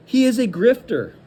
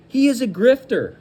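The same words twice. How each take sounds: The two takes are said the same way.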